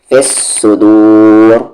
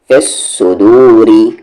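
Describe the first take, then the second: First: The phrase ends on a stopped, heavy r. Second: The phrase continues with a light r plus vowel. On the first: The reciter pauses on the word. "Heavy" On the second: The reciter continues without pausing. "Light"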